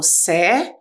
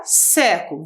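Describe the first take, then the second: First: "sé-cu-lo" in three detached syllables. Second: Said in the usual way. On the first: Shown as a demonstration. Teacher showing the division of the second word, "sé-cu-lo" syllable by syllable. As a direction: break "sé-cu-lo" apart, pausing after each syllable. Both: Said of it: "Olha a próxima divisão da segunda palavra".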